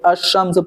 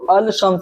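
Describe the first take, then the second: First: The L assimilates into a doubled sh sound. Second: The article's L is pronounced before the sh. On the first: The speaker calls it right. "अश-शम्स पढ़ेंगे" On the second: The speaker calls it wrong. "हम इसको अल-शम्स नहीं पढ़ेंगे"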